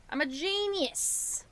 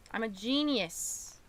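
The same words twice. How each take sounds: First: Higher, slow and self-satisfied; high proud voice. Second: Said in the usual way. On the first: Shown as a demonstration. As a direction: crow it up high. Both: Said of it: "repeats it in a higher voice".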